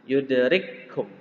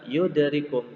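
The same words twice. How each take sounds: First: The k sound is held long and doubled. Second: The k sound is short and single. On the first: The speaker calls it right. "maka kaf yang kedua menjadi tasydid" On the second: The speaker calls it wrong. "bukan yudarikum tapi ditasydidkan kafnya"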